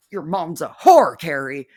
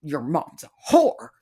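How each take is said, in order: First: Louder insult. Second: Said in the usual way. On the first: Real, not acted. Insult repeated, louder second take.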